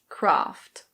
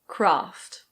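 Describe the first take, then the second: First: It is said in a British English accent. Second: The same.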